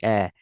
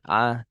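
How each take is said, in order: First: The vowel is thin, like eh. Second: The vowel is open, like a. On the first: The speaker calls it right. "agar baca dengan istifal eh" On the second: The speaker calls it wrong. "bukan a"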